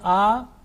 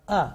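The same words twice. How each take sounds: First: The vowel is drawn out and prolonged. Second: The vowel is short and clipped. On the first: The speaker calls it wrong. "If I say a, it will be wrong" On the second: The speaker calls it right. "This is only for one second"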